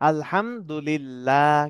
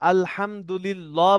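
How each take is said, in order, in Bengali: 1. 'lillah'-এর l হালকা আর পাতলা। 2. 'lillah'-এর l ভারী আর মোটা। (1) "আল্লাহ শব্দের ডানে কি আসছে? জের আসছে।" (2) "বলা যাবে না আবার"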